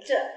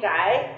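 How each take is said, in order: First: The word is said with an oblique tone. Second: The word is said with a level tone. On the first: It approximates the old entering tone needed for the rhyme. The speaker calls it right. "这个就是尽量念成仄声的声音" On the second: It is the modern Beijing reading, which breaks the rhyme. The speaker calls it wrong. "这是平声就不对了"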